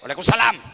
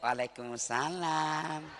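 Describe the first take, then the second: First: It is said firmly and plainly. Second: It is said softly, drawn out and swaying.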